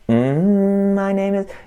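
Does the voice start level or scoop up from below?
scoop up. The voice starts low and slides up.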